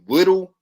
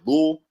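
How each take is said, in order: First: The middle t sound is clearly pronounced. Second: The middle t sound is dropped entirely. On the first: This is how others say it. "we don't say little" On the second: This is how the speaker's community says it. "it's like lul"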